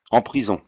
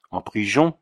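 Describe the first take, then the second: First: Said in the usual way. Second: Put-on Auvergnat accent, prison said priʒon with a rising question; alarmed Auvergnat question. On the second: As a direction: ask en prison with a frightened Auvergnat lift. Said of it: "avec son aimable accent".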